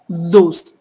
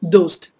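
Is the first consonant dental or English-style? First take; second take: dental; English-style. First: The d is soft, with tongue against the teeth. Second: The d is a hard English-style d. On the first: The speaker calls it right. "a little tongue is coming out of the teeth" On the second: The speaker calls it wrong. "just like in other English word, dost, just like toast"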